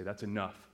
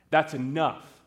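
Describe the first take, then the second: First: Low, soft, restrained parental warning; quiet warning. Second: Raised, firmer parental command; stern cut-off. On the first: Parents cut off their son's preaching, quietly stern. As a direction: say it low and under control. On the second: Parents cut off their son's preaching, angrily firm. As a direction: repeat it with more force, shutting him up. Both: Acted.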